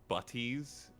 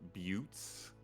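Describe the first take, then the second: First: The word is sounded out just as spelled. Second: The word is said in its usual pronunciation.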